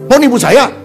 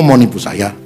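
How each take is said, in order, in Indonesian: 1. Diucapkan dengan nada tinggi dan marah. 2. Diucapkan dengan nada lebih rendah dan lebih tenang. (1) "ini bisa berantem" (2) "Coba direndahkan nada suaranya"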